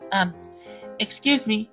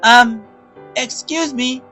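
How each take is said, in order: First: It is said quietly and shyly. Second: It is said loudly and firmly.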